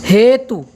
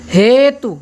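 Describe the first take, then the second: The two takes are said the same way.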